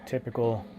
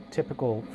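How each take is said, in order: Both takes have the same delivery.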